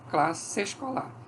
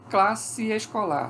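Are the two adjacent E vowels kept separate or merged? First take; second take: merged; separate. First: The two E vowels merge into one. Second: The two E vowels are pronounced separately.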